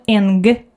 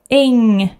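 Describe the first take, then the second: First: It ends with an audible hard g sound. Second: It ends with only a nasal sound. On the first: The speaker calls it wrong. "not ing or something like that" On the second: The speaker calls it right. "just the nasal sound"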